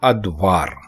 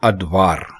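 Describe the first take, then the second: First: The word begins with an a sound. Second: The same.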